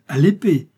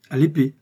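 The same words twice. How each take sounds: First: "À l'épée!" shouted louder and higher; louder alarmed cry. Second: Alarmed exclamation. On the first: The factory owner hears the weapon is the sword, panicked louder cry. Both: Acted. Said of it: "s'exclama le malheureux usinier".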